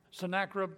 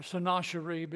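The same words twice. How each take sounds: First: Sennacherib with a short a, sen-NAK-rib; pronunciation. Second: Sennacherib with a long ah and sh, sen-AH-sher-ib; pronunciation. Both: Shown as a demonstration. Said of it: "they pronounce it".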